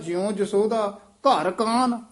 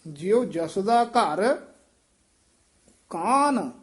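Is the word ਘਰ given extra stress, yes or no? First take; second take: no; yes. First: The word ghar is not given extra stress. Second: The word ghar is stressed and kaan is heavy. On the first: Yashoda is in Krishna's house. The speaker calls it wrong. "ਇਹਦਾ ਅਰਥ ਗਲਤ ਹੋ ਜਾਵੇ" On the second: Krishna played in Yashoda's house. The speaker calls it right. "ਘਰ ਤੇ ਠਮਕ ਲਾਉਣੀ ਹੈ ਤੇ ਕਾਨ ਜਿਹੜਾ ਹੈ ਇਹ ਭਾਰਾ ਉਚਾਰਨ ਕਰਨਾ ਹੈ"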